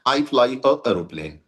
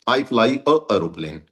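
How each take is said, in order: First: A jerky break comes before 'aeroplane'. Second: The same.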